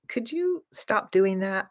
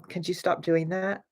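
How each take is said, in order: First: The tone is gentle and polite. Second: The tone is sharp and impolite. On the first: A courteous request. The speaker calls it right. "you're being polite" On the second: A rude demand. The speaker calls it wrong. "that tone is very, very impolite"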